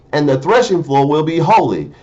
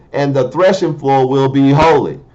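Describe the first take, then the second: Both takes have the same delivery.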